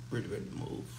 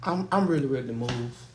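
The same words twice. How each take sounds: First: Softer, murmured to himself; quiet murmur. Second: Said in the usual way. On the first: Real, not acted. Tired of the house, murmuring to himself quietly. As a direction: let it drop to a low mutter under the breath.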